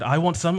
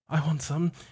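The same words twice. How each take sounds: First: It is said louder and faster. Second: It is said louder.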